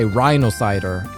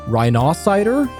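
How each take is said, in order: First: It is pronounced as rhino plus cider. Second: It is pronounced much like the word rhinoceros.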